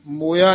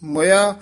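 First: ਮੋਇਆ with an open o sound, the wrong reading; ਮੋਇਆ as a mistaken o vowel. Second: ਮੁਇਆ with a short u vowel, the correct reading; ਮੁਇਆ clearly with short u. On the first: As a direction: say ਮੋਇਆ with o, not u. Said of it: "ਮੋਇਆ ਨਹੀਂ ਕਹਿਣਾ". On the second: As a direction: say ਮੁਇਆ with u, not o. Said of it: "ਇੱਥੇ ਯਮਕ ਲਾ ਦੇਣੀ ਹੈ". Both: Shown as a demonstration.

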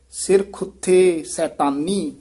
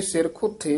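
First: Slow, ਸਿਰ and ਖੁੱਥੇ kept apart; careful ਸਿਰ ਖੁੱਥੇ. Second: ਸਿਰ ਖੁੱਥੇ slurred into one quick word; the wrong way, fast and joined; wrong run-together. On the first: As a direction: separate ਸਿਰ from ਖੁੱਥੇ, slowly. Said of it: "ਧਿਆਨ ਨਾਲ ਉਚਾਰਨ ਕਰਨਾ ਹੈ". (ਸਿਰ ਖੁੱਥੇ ਵੱਖ ਕਰਕੇ ਧਿਆਨ ਨਾਲ) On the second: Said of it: "ਨਹੀਂ ਕਿਹਾ ਜਾਣਾ". (ਗਲਤ, ਜੋੜ ਕੇ ਤੇਜ਼) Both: Shown as a demonstration.

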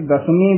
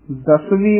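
First: ਦਸਵੀਂ with m, "das-meen"; wrong pronunciation. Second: ਦਸਵੀਂ with a v, "das-veen"; correct pronunciation. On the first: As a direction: swap the v of ਦਸਵੀਂ for m. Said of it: "ਦਸਵੀਂ ਅਸ਼ੁੱਧ ਹੈ". (ਦਸਵੀਂ ਨੂੰ 'ਦਸਮੀ' ਵਾਂਗ) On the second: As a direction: clear v after the s in ਦਸਵੀਂ. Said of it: "ਉਚਾਰਨ ਕਰਨਾ ਹੈ". (ਦਸਵੀਂ 'ਵਾਵੇ' ਨਾਲ ਬੋਲੋ) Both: Shown as a demonstration.

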